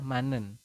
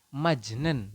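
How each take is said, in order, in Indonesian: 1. Konsonan akhir suku kata pertama berubah menjadi n. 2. Suku kata pertama tetap memakai konsonan akhir tertulisnya. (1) "Anda membacanya adalah manen" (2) "secara tulisan Anda membacanya adalah majnen"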